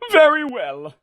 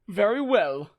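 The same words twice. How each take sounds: First: It is said in a less calm voice. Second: It is said in a calmer voice.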